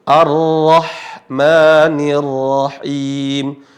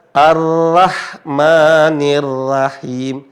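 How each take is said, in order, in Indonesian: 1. R-nya berat, vokalnya condong ke o. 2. R-nya ringan, vokalnya a biasa. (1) "ra ketika berharakat fathah mengarah bunyi O" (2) "Bukan dibaca"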